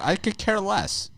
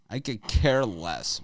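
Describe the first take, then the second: First: Higher, slow and dismissive "I could care less."; mocking high shrug. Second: Said in the usual way.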